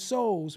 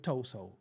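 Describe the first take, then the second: First: The word starts with an s sound, no t. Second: The word starts with a clear t sound. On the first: The speaker calls it right. "The T is silent" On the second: The speaker calls it wrong. "Please don't say"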